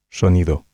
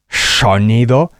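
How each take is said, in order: First: The S is soft and slightly hushed, like sh. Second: The S is hissed with a strong burst of air. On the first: The speaker calls it right. "La S sonará ligeramente sh" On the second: The speaker calls it wrong. "como si largaran una bocanada, una catarata de aire"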